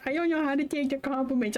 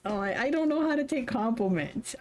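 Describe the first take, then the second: First: A lightly put-on shy voice, faster; quoting Jimin. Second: Said in the usual way. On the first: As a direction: mimic a bashful friend, quick and light. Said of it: "quoting Jimin".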